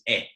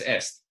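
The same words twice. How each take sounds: First: It is said with a French pronunciation. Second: It is said with a Spanish pronunciation. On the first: The speaker calls it right. "It's French. So all by itself, the word is est" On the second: The speaker calls it wrong. "If that were Spanish, that's est"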